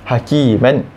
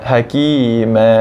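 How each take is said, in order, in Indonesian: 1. Kata ini berakhir dengan vokal pendek dan n. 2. Kata ini berakhir dengan vokal panjang, tanpa n. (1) "kita tak baca hakiman" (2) "Tapi kita baca ma hakima"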